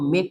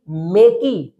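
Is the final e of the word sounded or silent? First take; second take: silent; sounded. First: The final e is silent at the end. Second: The final e is sounded at the end. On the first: The speaker calls it right. "इसको मेक पढ़ेंगे" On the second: The speaker calls it wrong. "मेकी नहीं पढ़ना है"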